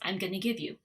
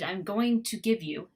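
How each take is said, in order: First: The words are reduced and run together. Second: Each word is said fully and separately. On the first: "what I would normally say in connected speech" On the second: "right there, I said"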